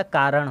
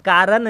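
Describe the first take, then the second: First: "कारण" ending in retroflex ṇ; correct retroflex n. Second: "कारण" ending in dental n, as "kaaran"; wrong n sound. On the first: Teacher gives the correct word, "कारण" with retroflex ṇ. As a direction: curl the tongue back on the final n of "कारण". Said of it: "कारण होता है". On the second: Teacher reads the misspelling aloud, "कारण" mispronounced with plain n. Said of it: "कारण नहीं होता". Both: Shown as a demonstration.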